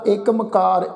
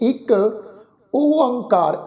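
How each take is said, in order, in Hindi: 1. दोनों शब्द एक साथ जुड़कर बोले जाते हैं। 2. दोनों शब्द अलग-अलग बोले जाते हैं। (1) "इस ढंग नाल असी पाठ उचारण नहीं करना" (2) "जिहड़ा शुद्ध पाठ है वो है जी"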